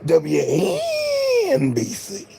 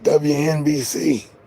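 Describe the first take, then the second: First: The letters are stretched with an exaggerated lean. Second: The letters are said flatly without any lean. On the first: The speaker calls it right. "you got to say it like this" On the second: The speaker calls it wrong. "not just W N B C"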